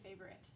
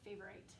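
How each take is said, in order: First: The last syllable has a short, reduced vowel. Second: The last syllable has a long 'eye' vowel. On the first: This is how people usually say it. "we're often kind of sloppy when we pronounce it" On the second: The spelling is easier to remember. "bash the I on the head to make it say its name"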